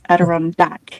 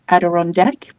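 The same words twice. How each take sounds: First: The last syllable sounds like 'dack'. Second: The last syllable sounds like 'deck'. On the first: The speaker calls it right. "but it's Adirondack" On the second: The speaker calls it wrong. "I keep thinking it's a chair on a deck, so call it Adirondack"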